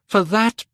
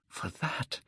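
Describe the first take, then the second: First: High, loud burst of the wish; cried out. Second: Breathless whisper of the wish. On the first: Dorian cries his wish aloud to the portrait. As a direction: throw it out with force. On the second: Dorian whispers his wish to the portrait. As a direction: breathe it, barely voiced. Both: A narrator's reading.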